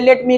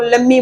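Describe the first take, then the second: First: Both words are said fully and separately. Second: The two words run together into one reduced word.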